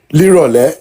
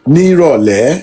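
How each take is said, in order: First: The two words are merged into one word. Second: The two words are said separately in full. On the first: The speaker calls it wrong. "If you're going with the logical, you know, the standard format, it should be" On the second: The speaker calls it right. "I have only ever heard people pronounce it out in full"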